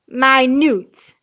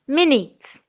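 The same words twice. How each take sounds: First: It is said as the adjective meaning very small. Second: It is said as the noun for sixty seconds. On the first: Something very small. "as an adjective is pronounced as minute" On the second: A short span of time. "which is a noun as a part of speech"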